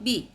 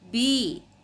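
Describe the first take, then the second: First: The letter ends without a long 'ee' vowel. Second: The letter ends with a long 'ee' vowel. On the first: The speaker calls it wrong. "not B" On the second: The speaker calls it right. "dibaca dengan menggunakan vokal I dipanjangkan"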